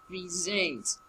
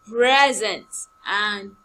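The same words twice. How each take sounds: First: "present" softer, pri-ZENT; verb stress. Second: "present" slow and loud, PREZ-ent; noun stress. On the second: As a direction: drawl "present" with the weight up front. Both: Shown as a demonstration. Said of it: "This is quite different".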